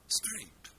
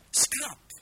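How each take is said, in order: First: Scrape, voyelle longue. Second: Scrap breathed out unvoiced, short and sharp; whispered scrap. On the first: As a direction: scrape lower, long vowel. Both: Shown as a demonstration. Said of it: "c'est deux mots très différents".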